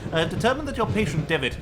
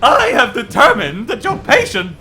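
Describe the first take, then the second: First: It is read in the first reading voice. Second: It is read in the other character voice.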